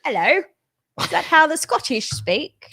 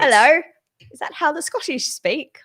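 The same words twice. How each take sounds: First: A clumsy attempt at a Scottish accent that drifts toward East London; hammed-up fake Scottish accent, brogue badly missed. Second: A hammed-up, unconvincing Scottish brogue; bad Scottish accent, again on request. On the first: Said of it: "That could be the worst Scottish". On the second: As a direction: fake Scottish accent that slips into East London Cockney. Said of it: "Do that again".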